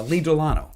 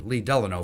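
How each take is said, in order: First: "Delano" said as duh-LAH-no; older pronunciation. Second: "Delano" said as DELL-uh-no; newer pronunciation. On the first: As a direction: stress the middle of "Delano", with an AH. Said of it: "now pronounces his name Lee Delano". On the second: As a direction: stress the first syllable of "Delano". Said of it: "now pronounces his name". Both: Shown as a demonstration.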